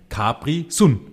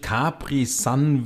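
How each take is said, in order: First: Sun is said in the local German dialect. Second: Sun is said like the English word. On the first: The speaker calls it right. "dabei ist es kurpelsisch" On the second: The speaker calls it wrong. "Jetzt habe ich es ja schon gleich falsch ausgesprochen"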